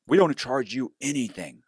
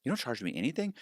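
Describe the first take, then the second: First: Slightly higher, assured sales claim; lightly voiced broker pitch. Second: Softer, higher questioning echo; mildly surprised customer. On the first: Broker selling a loan to a client, lightly assured. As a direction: imitate a broker reassuring a client. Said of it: "a lot of people will say". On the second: Retold or imitated. Client answering the broker's offer, mildly surprised. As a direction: lightly mimic a client's hopeful disbelief. Customer replies in acted exchange.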